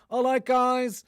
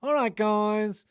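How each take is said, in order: First: High, far, breezy American "All right, guys"; American vlogger accent. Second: Drawn-out, slow American "All right, guys", still high; slow American accent. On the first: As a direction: ape an American influencer greeting in an American accent. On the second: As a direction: stretch the American influencer greeting out slowly. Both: Retold or imitated. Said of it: "the same pronunciation".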